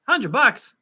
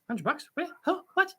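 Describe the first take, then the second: First: Higher, punched-out surprise; surprised exclamation. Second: Higher, softer puzzled questions; baffled questioning. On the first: Streamer reacts to a hundred bucks, exclaiming in surprise. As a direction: blurt the amount out in surprise. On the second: Streamer puzzled about where the hundred bucks is, baffled questioning. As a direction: query it in quiet, rising disbelief. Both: Real, not acted.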